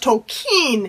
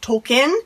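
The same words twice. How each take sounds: First: The second syllable sounds like 'keen'. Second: The second syllable does not sound like 'keen'. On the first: The speaker calls it right. "It's pronounced Tolkien. ... It's always been like Keen" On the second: The speaker calls it wrong. "it's not actually pronounced Tolkien"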